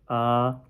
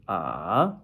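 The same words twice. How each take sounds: First: The pitch stays high and level. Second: The pitch rises from middle to high. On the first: "first tone, going straight" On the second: "second tone, going up"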